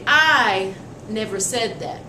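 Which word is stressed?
I. The stress falls on the word I. Someone else may have said it. "the emphasis is on who the speaker is"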